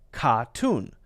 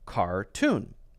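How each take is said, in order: First: The R after the first vowel is dropped. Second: The R after the first vowel is clearly pronounced. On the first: "And Ronnie would say, says, ka-tune" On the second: "Americans would say car, er, same er, tune, cartoon"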